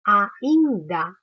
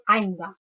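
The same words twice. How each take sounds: First: "ainda" in three distinct beats, a, in, da; split into syllables. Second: "ainda" quick, its first vowels glided into one syllable; run together. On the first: Teacher showing how she says it, "ainda" divided a, in, da. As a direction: separate the a from the in in "ainda", firmly and louder. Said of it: "Eu falo ainda". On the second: Teacher showing how she does not say it, "ainda" run together as ain-da. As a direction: slur "ainda" into ain-da without a break. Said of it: "Eu não falo ainda". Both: Shown as a demonstration.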